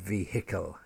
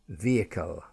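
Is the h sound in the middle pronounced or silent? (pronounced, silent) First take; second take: pronounced; silent. First: The h sound in the middle is pronounced. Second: The h sound in the middle is silent. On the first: The speaker calls it wrong. "not vehicle" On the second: The speaker calls it right. "when the H is in the middle of a word like vehicle"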